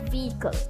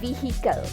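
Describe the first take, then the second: First: The h sound in the middle is silent. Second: The h sound in the middle is pronounced. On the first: The speaker calls it right. "the H is silent" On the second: The speaker calls it wrong. "we often say this as"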